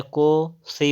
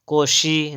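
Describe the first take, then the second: First: "कोसी" slow, with plain s; correct sibilant. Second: "कोशी" with sh; wrong sibilant. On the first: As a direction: stretch "कोसी" as ko-see. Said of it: "कोसी होता है". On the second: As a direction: say "कोशी" as ko-shee. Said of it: "कोशी नहीं होता है". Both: Shown as a demonstration.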